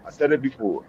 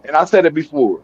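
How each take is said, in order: First: Quietly repeating for emphasis; much softer repeat. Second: Said in the usual way. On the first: Real, not acted. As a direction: drop the repeat to a near murmur. Quiet repeat of his own point.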